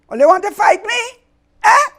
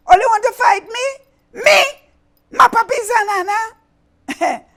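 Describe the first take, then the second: First: High, loud outraged challenge; angry villain. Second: Even higher, louder outraged roar; furious villain. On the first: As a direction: roar it at the animals. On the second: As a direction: explode with indignation. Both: Acted. Villain enraged.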